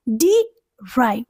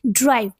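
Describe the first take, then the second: First: "डी drive" broken apart, first part "डी" stressed; syllable stress demo. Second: Said in the usual way. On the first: Shown as a demonstration. Teacher showing learners stressed and unstressed syllables, "डी" stressed apart from "drive". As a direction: split "डी drive" into two beats, second one weaker. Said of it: "stressed हुआ". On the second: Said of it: "जैसे".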